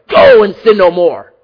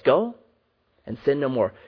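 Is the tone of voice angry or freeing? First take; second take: angry; freeing. First: It is said in an angry voice. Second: It is said in a freeing, releasing voice. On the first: The listener is being condemned. The speaker calls it wrong. "I don't believe Jesus says this with anger in his voice" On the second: The listener is being set free. The speaker calls it right. "I believe he says it with a freeing voice"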